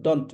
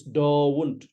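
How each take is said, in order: First: Don't with a short 'uh' vowel, dunt; "don't" clipped to a single short vowel; mispronounced don't. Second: Don't drawn out as DAW-oont; "don't" with the diphthong exaggerated, falling; correct don't. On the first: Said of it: "It's not don't". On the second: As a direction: say don't with a long gliding vowel. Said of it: "It's don't". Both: Shown as a demonstration.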